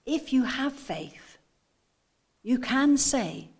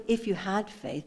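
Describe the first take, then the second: First: Slow, deliberate "have" and "can"; "have" and "can" spelled out as certainties; stress on have and can. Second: "had" in a quicker, contrasted phrase; light weight on "had", falling away; stress on had. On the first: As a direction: stretch "have", then hit "can" firmly. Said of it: "but he's saying". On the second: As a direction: pass through "if you had faith" as the rejected reading. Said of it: "He's not saying". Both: Shown as a demonstration.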